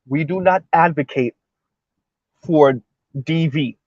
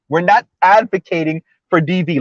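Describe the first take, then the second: First: It is said slowly and deliberately. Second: It is said at a normal pace.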